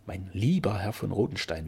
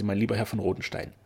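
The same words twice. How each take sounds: First: "lieber" lifted in pitch and lingered on; stress on lieber. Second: Said in the usual way. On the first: A narrator's reading. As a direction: savour the word "lieber", drawing it out. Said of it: "wie drang dieses Wort so beseligend".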